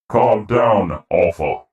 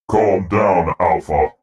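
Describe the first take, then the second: First: The voice is pitched higher. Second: The voice is pitched lower.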